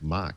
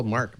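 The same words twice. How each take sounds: First: Mock for Mark, the R dropped Boston-style; Boston accent. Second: Said in the usual way. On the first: Daughter asks why grandmother calls Mark that, Boston accent Mock. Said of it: "why Graham ... calls Mark Mock". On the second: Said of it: "my daughter asked why Graham".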